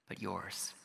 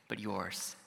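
Both takes have the same delivery.

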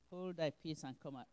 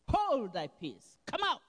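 First: It is said meekly, without force. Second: It is said firmly, with commanding force.

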